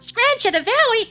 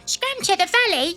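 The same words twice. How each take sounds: First: It is said in an American accent. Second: It is said in a British accent.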